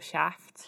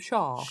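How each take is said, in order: First: The word is said in a Liverpudlian accent. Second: The word is said in an English accent. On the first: "If you're Liverpudlian, you'll Shaft" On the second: "in an English accent, it is wrong, because we're calling him Shaft"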